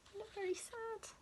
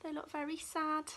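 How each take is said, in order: First: Pitying. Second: Said in the usual way. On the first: Real, not acted. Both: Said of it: "Oh dear, look".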